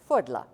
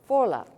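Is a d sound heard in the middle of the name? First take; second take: yes; no. First: The name is said with a d sound. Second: The name is said without a d sound.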